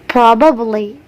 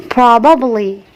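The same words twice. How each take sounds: Both takes have the same delivery.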